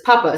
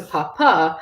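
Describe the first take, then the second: First: "papa" as PA-pa, short final vowel; stress on first syllable. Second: "papa" as pa-PA, long final A; stress on last syllable. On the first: Teacher contrasting potato with father, first-syllable stress. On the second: Teacher contrasting father with potato, final-syllable stress. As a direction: land the weight on the second syllable of "papa". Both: Shown as a demonstration. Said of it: "with the accent on the last A".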